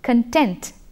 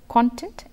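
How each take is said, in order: First: It is pronounced the way the verb is. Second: It is pronounced the way the noun is. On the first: It means satisfied. "there as a verb" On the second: It refers to the material or substance. "content as a noun"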